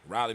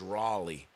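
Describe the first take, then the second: First: The first syllable sounds like 'rye'. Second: The first syllable sounds like 'raw'. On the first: This is the local Mississippi way of saying it. The speaker calls it wrong. "We say Riley in Mississippi" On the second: This is the standard name of the city. The speaker calls it right. "It's Raleigh"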